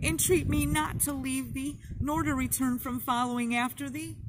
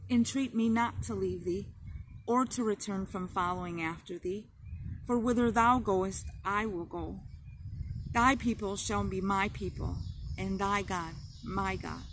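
First: High, sobbing plea, much higher; cling and beg through tears; desperate sobbing version of Ruth's vow; tearful entreaty. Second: Calmer, sincere promise near her own pitch; steady devoted vow, tears subsiding; heartfelt vow. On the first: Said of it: "sobbing over and over again". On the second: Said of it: "repeated with all her heart". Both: A narrator's reading.

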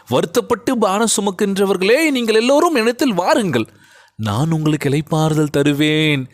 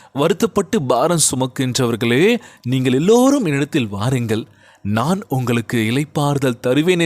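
First: Impassioned recitation, much higher on the first two lines; fervent scripture cry. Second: Said in the usual way. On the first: Shown as a demonstration. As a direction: lift the verse up like a preacher's call. Same verse, preached fervently.

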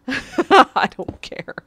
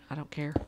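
First: Slow, louder, higher laughing through it. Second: Said in the usual way. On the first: Real, not acted. Streamer laughing as he tells viewers he doesn't care. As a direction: laugh out the words defiantly. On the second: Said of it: "I don't care (laughing repeat)".

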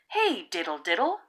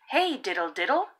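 The two takes are said the same way.

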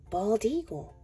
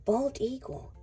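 Both takes have the same delivery.

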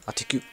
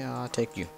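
First: "I'll take you" jumps way up high; squeaky high. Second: Said in the usual way. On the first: Real, not acted.

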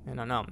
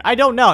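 First: Low, soft admission of not knowing; quiet musing. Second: Loud, high burst of bafflement; exasperated. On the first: Player puzzled by a cow in the cave, quiet musing. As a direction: say it low, half to yourself. Muses to self before loud repeat. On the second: Player answering own question about the cow, loud exasperation. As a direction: throw it out loudly, at a loss. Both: Real, not acted.

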